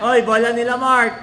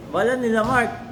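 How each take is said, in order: First: Loud call to teammate; shouting. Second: Said in the usual way. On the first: Real, not acted. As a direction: yell the warning across court. Calling out possession to teammate. (malakas na sigaw)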